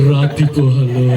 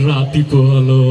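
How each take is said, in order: Both takes have the same delivery.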